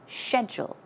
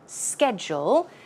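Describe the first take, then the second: First: It is said with a British pronunciation. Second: It is said with an American pronunciation. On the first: "But in British English, you will often hear them say schedule" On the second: "In American English, we say schedule"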